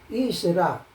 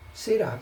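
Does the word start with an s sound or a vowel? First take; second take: vowel; s sound. First: The word starts with a vowel before the s. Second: The word starts with an s sound. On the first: The speaker calls it wrong. "isra, não" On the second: The speaker calls it right.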